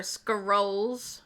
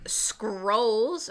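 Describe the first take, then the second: First: Scrolls split as "skuh-ROLLS"; alternative pronunciation. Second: Scrolls as one long syllable; drawn-out pronunciation. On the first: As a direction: add an uh between the C and R of Scrolls. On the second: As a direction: stretch SCROLLS slowly with no vowel between C and R. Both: Shown as a demonstration. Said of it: "I don't know how to say it".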